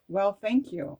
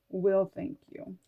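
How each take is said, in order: First: "Well, thank you" with an open e in "Well"; reading it as well. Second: "Will thank you" with the word "will" as in the future; reading it as will. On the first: Rereading her handwriting, trying "Well, thank you" instead. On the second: Deciphering her own handwriting, first reading "Will thank you". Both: Real, not acted.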